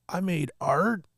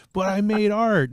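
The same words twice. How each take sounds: First: Put-on higher kid voice, wondering question; a little boy surprised he made something; imitating amazed kid. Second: Put-on higher, louder kid insisting; a boy defending his ruined film as art; imitating insistent kid. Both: Nephew voiced in a story.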